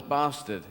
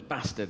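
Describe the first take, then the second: First: BASTARD with a long AH in the first syllable; southern English "bastard", broad long A; southern English pronunciation. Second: BASTARD with a short A as in cat; northern English "bastard", short flat A; northern English pronunciation. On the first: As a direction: say bastard the southern way, "bah-stard". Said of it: "the southern word is bastard". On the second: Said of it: "but northern is bastard". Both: Shown as a demonstration.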